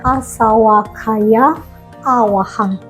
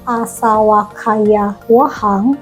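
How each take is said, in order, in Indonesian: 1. Katanya dipisah dengan vokal sebelum wahang. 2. Katanya dipisah tanpa vokal sebelum wahang. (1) "tapi harusnya asawakaya awahang" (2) "Sebenarnya kalau mau dipisah bukan asawakaya wahang"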